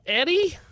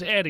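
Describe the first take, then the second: First: The pitch rises at the end of the name. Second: The pitch falls at the end of the name. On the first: It sounds unsure, like a question. "with that upwards inflection?" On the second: It is said as a plain statement. "just Eddie"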